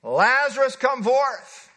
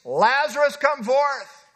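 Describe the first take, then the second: First: Booming order; Jesus ordering Lazarus out, bellowing; bellowed command. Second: A booming call of command; Jesus commanding the dead man, booming; loud cry. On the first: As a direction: bellow it as an order, not a suggestion. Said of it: "This was bellowed out". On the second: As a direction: call him out of the tomb loudly. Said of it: "he cried with a loud voice". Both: Acted.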